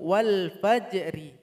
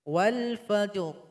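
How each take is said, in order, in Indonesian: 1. Huruf r terakhir diikuti oleh vokal i. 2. Frasa berakhir pada huruf r tanpa vokal. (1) "Awalnya ri" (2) "karena kita waqaf, ro-nya sukun"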